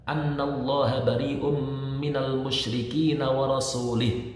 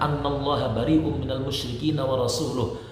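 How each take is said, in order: First: The final word ends with an i vowel. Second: The final word ends with a u vowel. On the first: God disowns the idolaters and also His messenger. The speaker calls it wrong. "kalau dibaca kasroh" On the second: God and His messenger disown the idolaters. The speaker calls it right. "Yang benar adalah"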